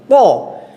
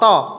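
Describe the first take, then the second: First: The consonant is heavy and thick. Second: The consonant is light and thin. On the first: The speaker calls it right. "tapi tebal. Po" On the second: The speaker calls it wrong. "bukan to, to"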